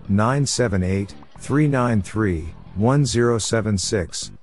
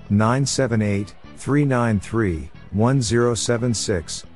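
No difference in how they are said.

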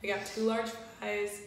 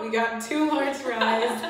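First: Said in the usual way. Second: Slower and louder, said again clearly; louder repeat. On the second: Real, not acted. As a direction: repeat it so it carries. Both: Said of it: "My voice just cut out".

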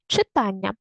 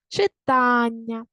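First: Said in the usual way. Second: Читання slowly, with a drawn-out ТА; stress on ТА. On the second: Shown as a demonstration. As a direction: hold the middle syllable of Читання long. (Читання з протяжним наголосом на ТА) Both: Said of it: "Поставте наголос самостійно".

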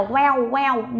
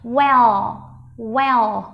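First: "well" mispronounced with a w-like ending, like "weo"; wrong final L. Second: "well" ending in a true L, tongue behind the teeth; clear final L. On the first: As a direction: say "well" without the tongue-tip L, ending in "w". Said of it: "Không phải là". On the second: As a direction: finish "well" with the tongue tip up on the L. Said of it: "Nhớ lưỡi đưa lên chân răng". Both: Shown as a demonstration.

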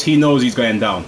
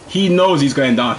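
First: Said in the usual way. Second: Slow, deliberate, every word weighed; slow emphatic repeat. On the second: Real, not acted. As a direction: drag it out to drive it home.

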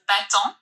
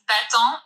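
First: Bâton with nasal "on", no final T, rising; French bâton. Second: Bâton with silent T and nasal "on"; French bâton. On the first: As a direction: model bâton for the learner. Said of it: "it's bâton". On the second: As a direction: say bâton, drop the T, nasal ending. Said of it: "It's bâton". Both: Shown as a demonstration.

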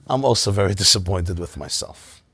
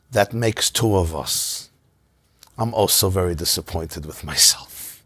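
First: Said in the usual way. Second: Slow, near-whispered admission; hushed and unhurried self-rebuke. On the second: Retold or imitated. Rebbe's calm humble reply.

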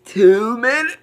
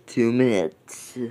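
First: Excited. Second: Said in the usual way. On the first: Real, not acted. Repeating time, playful.

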